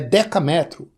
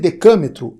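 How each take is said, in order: First: The stress is on the third syllable. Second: The stress is on the second syllable. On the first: The speaker calls it right. "mantêm a tonicidade do nome" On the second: The speaker calls it wrong. "Não existe decâmetro"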